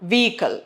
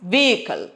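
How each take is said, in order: The two takes are said the same way.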